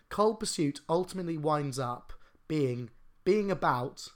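The sentence has a short break in it. The speaker calls it right. "Once I've added a comma, it's all right"

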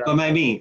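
The voice falls at the end, like a statement.

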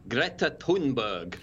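The name is said with a Swedish pronunciation. "I heard an actual Swedish person pronounce it as something like"

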